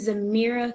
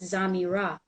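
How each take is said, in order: First: The name is said with 'mirror' in it. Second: The name is said without 'mirror' in it. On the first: The speaker calls it wrong. "I kind of like saying Zamira because it reminds me of a mirror" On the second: The speaker calls it right. "but technically it's Zamira"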